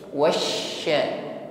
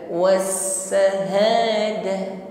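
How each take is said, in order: First: It has a strong, spreading 'sh' sound. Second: It has a thin 's' sound. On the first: The speaker calls it right. "Kalau shin menyebar angin di dalam mulut kita" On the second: The speaker calls it wrong. "Kalau wasa ini tipis bunyinya huruf sin"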